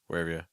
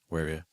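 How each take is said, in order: No difference in how they are said.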